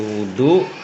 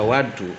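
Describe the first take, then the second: First: The first vowel is a rounded 'u' sound. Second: The first vowel is an open 'a' sound. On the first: It means the act of ablution itself. "kalau dibacanya domah, wawuhnya seperti wudhu" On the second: It means the water used for the ablution. "kalau dibacanya wadu"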